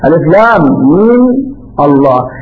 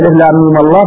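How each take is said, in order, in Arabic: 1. هناك وقفة قبل الكلمة الأخيرة. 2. الكلمات تتصل ببعضها دون وقفة. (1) "إذا وقفنا اعتبرنا آية مستقلة" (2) "فإنه لما وصل الله بألف لام ميم التقى ساكنان"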